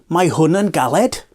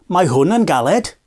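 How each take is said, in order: The two takes are said the same way.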